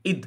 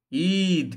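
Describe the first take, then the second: First: "ঈদ" with a brief, quick i; short vowel. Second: "ঈদ" with the i stretched out; long vowel, mistaken. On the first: Teacher corrects the overlong form, short "ঈদ". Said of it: "এখানে মানে সময়টা অল্প". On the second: Teacher shows what we don't say, overlong "ঈদ". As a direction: hold the vowel of "ঈদ" too long. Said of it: "এভাবে কিন্তু আমরা বলি না". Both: Shown as a demonstration.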